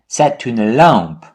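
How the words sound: The voice falls at the end.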